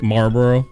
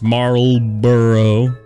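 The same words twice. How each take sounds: First: The word is said quickly with syllables run together. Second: The word is said fully with each syllable clear. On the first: The speaker calls it wrong. "I just say it real quick" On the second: The speaker calls it right. "But it's Marlboro"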